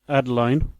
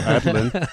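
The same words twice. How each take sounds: First: The last syllable rhymes with line. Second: The last syllable rhymes with lin. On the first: "you have Adeline, Caroline" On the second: "but it could be Madeline, so Adeline"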